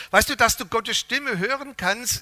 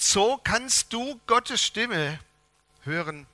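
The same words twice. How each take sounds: First: Said in the usual way. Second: Very slow, each word weighed, "Gottes" carried and falling; slow title announcement. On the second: Shown as a demonstration. Preacher announces the sermon title to the church, slow and weighty. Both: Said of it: "der Predigtitel lautet".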